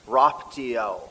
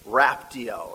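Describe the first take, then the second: First: Raptio said with an open ah, RAHP-tee-oh; Latin pronunciation. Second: Raptio with a flat Midwest a, RAP-tee-oh as in rapture; Midwest accent. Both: Shown as a demonstration. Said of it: "if I can say it in the Midwest accent".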